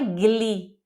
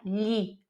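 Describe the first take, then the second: First: A hard g is sounded before the l. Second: No hard g; a palatal l sound is used. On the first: The speaker calls it wrong. "Não é gli" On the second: The speaker calls it right. "É li, como se fosse L H"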